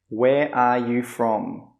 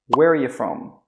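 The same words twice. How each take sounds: First: Each word is said separately and fully. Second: Quick, with linked words and 'you' as 'ya'.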